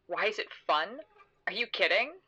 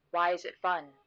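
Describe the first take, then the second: First: Incredulous echo. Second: Said in the usual way. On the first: Acted. Narrator echoing her companion's question on the swing, incredulous. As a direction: question swooping up in disbelief.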